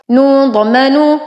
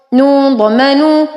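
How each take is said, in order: Both takes have the same delivery.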